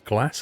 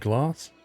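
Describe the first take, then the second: First: The word is said with a northern English accent. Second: The word is said with a southern English accent. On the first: "but to me, it's glass" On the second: "Down south, they all say glass"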